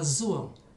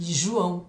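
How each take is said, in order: First: The word begins with a 'z' sound. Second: The word begins with a 'zh' sound. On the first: The speaker calls it wrong. "eu falava zoão" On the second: The speaker calls it right.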